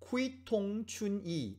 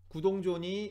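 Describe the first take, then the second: First: It is read with Chinese-style sounds, starting 'kui'. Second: It is read with Korean-style sounds, starting 'gu'. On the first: "알파벳을 읽어보면 쿠이통춘이 뭐 이렇게 읽을 만한" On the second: "우리가 알고 있는 발음은 구동존이죠"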